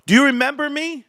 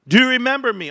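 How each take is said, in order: First: Much higher, triumphant "Do you remember me?" with "you" hit; taunting call-out. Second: Higher, still triumphant, "you" stressed; taunting repeat. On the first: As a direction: gloat at the doubters. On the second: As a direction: press the gloat once more. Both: Acted. Calling out to doubters.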